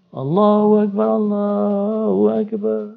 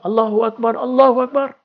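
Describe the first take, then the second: First: It is drawn out with a melodic lilt. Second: It is said short, firm and clipped.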